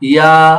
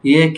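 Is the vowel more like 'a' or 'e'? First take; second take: a; e. First: The vowel is an open, raised 'a' sound. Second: The vowel is a lowered 'e' sound. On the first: The speaker calls it right. "একটু উপরে যাচ্ছে" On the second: The speaker calls it wrong. "তোমারটা হচ্ছে ইয়ে ইয়ে"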